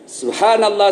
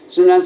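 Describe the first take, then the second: First: It is said slowly, with every syllable clear. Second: It is said fast and slurred, words run together. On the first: The prayer is recited with proper care. The speaker calls it right. "Itu ucapkan dengan baik" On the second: The prayer is being rushed carelessly. The speaker calls it wrong. "tidak jelas dia bilang"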